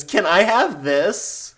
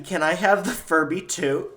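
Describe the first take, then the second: First: Put-on high, slow whiny child; bratty kid voice. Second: Put-on a kid asking her aunt sweetly; child asking politely. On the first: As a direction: beg like a spoiled little girl. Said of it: "your brat of a little niece goes". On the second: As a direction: ask like an eager little girl. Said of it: "Aunt Becky".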